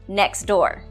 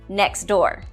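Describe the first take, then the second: Both takes have the same delivery.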